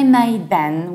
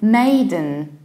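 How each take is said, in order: First: The ending is said as a full den. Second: The ending is reduced to a short din. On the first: The speaker calls it wrong. "We don't say maiden" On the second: The speaker calls it right. "We say maiden"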